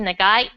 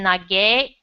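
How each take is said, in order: First: The word ends in an 'ai' sound. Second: The word ends in a short 'e' sound. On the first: This is the standard form of the word. The speaker calls it right. "this is actually nagai" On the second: A little child says it carelessly. The speaker calls it wrong. "she'll sometimes mispronounce something"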